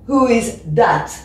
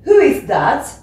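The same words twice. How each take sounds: First: That begins with a hard d sound. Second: That begins with a soft th sound. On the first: "Donc le D va devenir un D" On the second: "au lieu de dire"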